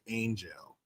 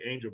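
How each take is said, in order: First: The word has a stretched, song-style pronunciation. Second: The word has its ordinary everyday spoken pronunciation. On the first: "when they sing it in a song, they say angel" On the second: "that's how we say angel"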